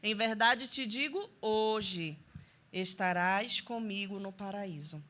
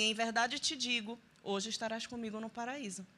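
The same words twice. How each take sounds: First: The pause comes after the word 'hoje'. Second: The pause comes before the word 'hoje'.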